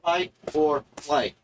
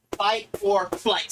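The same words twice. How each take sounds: First: Said in the usual way. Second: Slow, drawn-out chant. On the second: Shown as a demonstration. Presenter leading viewers in a slow chant. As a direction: chant it slowly like a mantra. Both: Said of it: "Say it with me".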